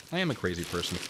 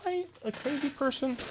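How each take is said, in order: First: Said in the usual way. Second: Very high, thin falsetto question; questioning himself. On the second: Real, not acted. Streamer hunting for lost items, questioning himself in high falsetto. Asks self, then answers flatly.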